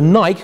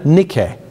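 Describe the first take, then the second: First: It is said the usual local way. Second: It is said the Japanese way. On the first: "which we use, is wrong" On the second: "What are they called in, in Japan?"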